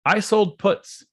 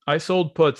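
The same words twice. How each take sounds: First: Each word slow and weighted, "sold" hit hardest; drawn-out "I sold puts" with "sold" stressed; slow emphatic. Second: Said in the usual way. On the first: Real, not acted. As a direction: lean on "sold" and stretch the whole line. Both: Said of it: "repeated for emphasis".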